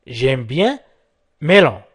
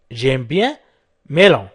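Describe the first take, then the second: No difference in how they are said.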